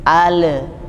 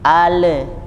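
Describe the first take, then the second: Both takes have the same delivery.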